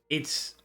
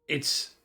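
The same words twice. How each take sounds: Both takes have the same delivery.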